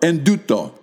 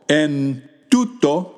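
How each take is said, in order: First: Words run together, n and t become nd. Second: Two separate words with a plain n and t. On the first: "join them together and produce a sound nd" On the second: "pronounce them separately as they are spelled"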